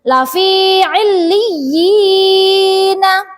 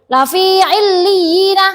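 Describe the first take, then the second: First: The vowel is held for a moderate length. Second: The vowel is cut off too briefly. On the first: The speaker calls it right. "Dua harokat, tidak boleh lebih" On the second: The speaker calls it wrong. "Atau pendek nggak boleh"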